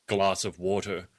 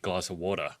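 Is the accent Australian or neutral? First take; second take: neutral; Australian. First: It is said in a careful, less Australian accent. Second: It is said in a broad Australian accent. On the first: The speaker calls it right. "I make an, an effort, for example, to say" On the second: The speaker calls it wrong. "the Australian in me would come out be"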